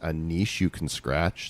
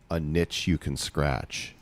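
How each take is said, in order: First: Niche is pronounced with a long ee vowel. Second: Niche is pronounced to rhyme with itch. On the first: The pun is lost and the title makes no sense. The speaker calls it wrong. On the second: The title is a pun on an itch you can scratch. The speaker calls it right.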